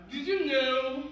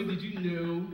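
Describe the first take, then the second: First: Said in the usual way. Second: Low drawn-out did you know. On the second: Shown as a demonstration. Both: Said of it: "repeated with varied delivery".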